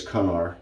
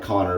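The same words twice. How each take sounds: First: "Cunnar" with a "cun" first syllable; corrected name pronunciation. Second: "Connor" as the familiar English name; spelling-based pronunciation. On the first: Vlogger correcting the Gaelic soap name for viewers, "Cunnar" with "cun". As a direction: say "Cunnar" with an UH vowel, unlike "Connor". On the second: Vlogger showing how the soap name looks, spelling-based "Connor". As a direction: say "Connor" just as it looks written. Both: Shown as a demonstration. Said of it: "looks like Connor, but it's Cunnar".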